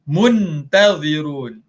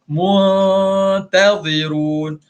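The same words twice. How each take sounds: First: The n is fully and clearly pronounced. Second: The n is hidden and softened, not fully pronounced. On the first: The speaker calls it wrong. "Kalau asal bunyi dia mun" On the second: The speaker calls it right. "Mu mu dia tak jadi mun, dia jadi mu"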